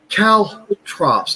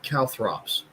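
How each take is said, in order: First: The middle consonant is a plain t sound. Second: The middle consonant is a th sound. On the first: The speaker calls it right. "Caltrops, not calthrops" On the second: The speaker calls it wrong. "not calthrops"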